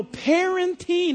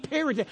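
First: Parenting stressed, slow, falling; parenting, clearly said. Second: Parenting said as parroting, soft and falling; parroting contrasted. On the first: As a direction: say parenting firmly and slowly with a clear falling tune. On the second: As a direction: say parenting as parroting, softer, to set it against the word before. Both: Shown as a demonstration. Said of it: "I said parenting, not parroting".

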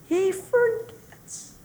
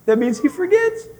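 First: Forgets drawn out high and soft, much slower; slow hushed emphasis. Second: Said in the usual way. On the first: Shown as a demonstration. Preacher repeating he forgets in soft wonder.

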